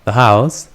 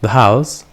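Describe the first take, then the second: No difference in how they are said.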